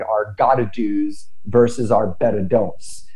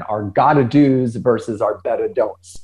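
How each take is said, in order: First: Said in the usual way. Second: Our gotta do's versus our better don'ts, each phrase set apart and leaned on; repeated with emphasis. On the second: Shown as a demonstration. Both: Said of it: "So I'll say that again".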